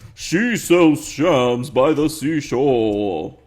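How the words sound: It is said in a deep, low voice. The speaker calls it right.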